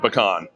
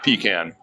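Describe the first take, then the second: First: Pecan is said the Louisiana way. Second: Pecan is said a non-Louisiana way. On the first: This is how locals name the nut. The speaker calls it right. "in Louisiana we say pecan" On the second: This sounds like a word for something else entirely. The speaker calls it wrong. "not pecan. That's something else entirely"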